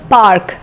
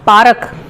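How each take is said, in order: First: It is said with a standard English accent. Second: It is said with a Haryanvi accent.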